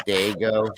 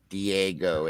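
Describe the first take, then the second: First: "Dago" in two syllables, DAY-go; "Dago" as day-go, correcting the name; corrected name. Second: "Diego" in three syllables, dee-AY-go; "Diego" with a clear "dee" at the front; mispronounced name. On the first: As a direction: say "Dago" starting like "day", no "dee". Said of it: "It's Dago". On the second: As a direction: slowly spell out "Diego" by sound, dee-ay-go. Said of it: "my name is not Diego". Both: Shown as a demonstration.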